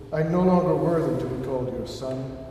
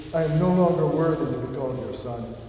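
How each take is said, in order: The two takes are said the same way.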